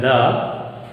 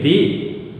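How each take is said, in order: First: "the" as before a consonant, thuh. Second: "the" as before a vowel, thee. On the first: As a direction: say "the" with a neutral vowel. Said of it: "before a word begins with a". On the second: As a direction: say "the" with a long ee. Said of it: "before a word begins with a vowel". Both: Shown as a demonstration.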